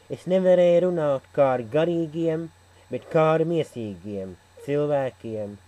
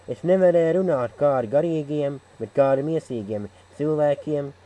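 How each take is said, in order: Both takes have the same delivery.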